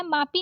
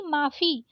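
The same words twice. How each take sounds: First: मापी with a plain p; wrong प for फ. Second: माफी with an f sound; correct फ. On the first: Teacher showing the mistake, मापी with plain p. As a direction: say मापी with unaspirated pi. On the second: Teacher correcting it, माफी with breathy fi. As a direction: release air on फ in माफी. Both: Shown as a demonstration. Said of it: "मापी नहीं माफी".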